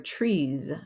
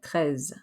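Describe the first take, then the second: First: It sounds like the English word 'trees'. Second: It sounds like neither English word. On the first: The speaker calls it wrong. "not tries or trees" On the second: The speaker calls it right. "but treize"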